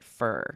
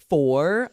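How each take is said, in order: First: The word is reduced to sound like 'fur'. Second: The word has a full 'or' vowel. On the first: "I often will say it fur" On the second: "rarely is for"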